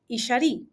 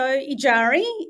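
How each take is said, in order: First: The name is said in a Huichol way. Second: The name is said in a Western way. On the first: "in that language, it's pronounced" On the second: "my Western pronunciation of my name"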